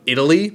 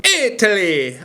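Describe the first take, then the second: First: Said in the usual way. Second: High, exclaimed mock Italian accent; hammed-up Italian accent, pitched up; bad Italian accent. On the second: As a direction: call it out in a badly faked Italian accent. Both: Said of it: "I'm so bad at the accent".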